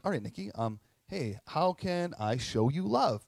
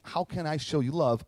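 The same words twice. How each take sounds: First: Robotic ask. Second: Said in the usual way. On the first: Retold or imitated. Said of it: "Probably sound like a robot". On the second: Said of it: "when I am saying".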